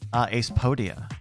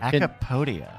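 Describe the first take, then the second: First: The first syllable sounds like 'ace'. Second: The first syllable sounds like 'ack'. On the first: The speaker calls it right. "Ace Podia makes sense" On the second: The speaker calls it wrong. "he thought it was Acapodia"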